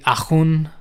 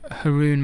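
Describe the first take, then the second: First: It is said in a French accent. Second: It is said in an English accent.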